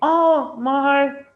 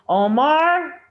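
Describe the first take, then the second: First: The stress is on the first syllable. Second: The stress is on the second syllable. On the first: "If I want to put stress on the first syllable of his name" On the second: "if I want to put stress on the second syllable"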